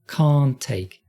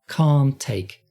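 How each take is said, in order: Both takes have the same delivery.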